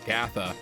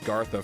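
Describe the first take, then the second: First: The name has no r sound after the first vowel. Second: The name has an r sound after the first vowel. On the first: The speaker calls it right. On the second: The speaker calls it wrong.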